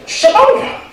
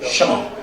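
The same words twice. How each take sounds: First: High, loud laughing call across the room; loud, laughing call of the name. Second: Said in the usual way. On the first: Real, not acted. Host calling man to podium.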